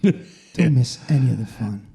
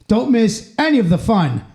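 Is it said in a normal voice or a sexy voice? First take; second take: sexy; normal. First: It is said in a put-on sexy voice. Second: It is said in a normal announcer voice.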